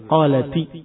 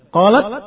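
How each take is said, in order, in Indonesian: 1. Kata ini berakhir dengan vokal i tambahan. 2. Kata ini berakhir dengan bunyi t mati. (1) "taknya dikasrahkan, baru bisa dibaca" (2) "Susah dibaca"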